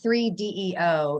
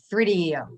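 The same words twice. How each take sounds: First: The name is said as separate parts. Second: The name is said all together, without breaks. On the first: The speaker calls it wrong. "it's not three D E O" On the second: The speaker calls it right. "you have to say it all at one time"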